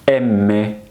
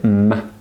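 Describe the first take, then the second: First: The full letter name is spoken. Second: Only the bare consonant sound is spoken. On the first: "That is the name of the letter" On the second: "the sound it gives us"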